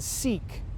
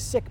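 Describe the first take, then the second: First: The word has a long vowel, like seek. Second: The word has a short vowel, like sick. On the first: The speaker calls it wrong. "rather than seek or other pronunciations" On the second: The speaker calls it right. "their name was the, the sick people"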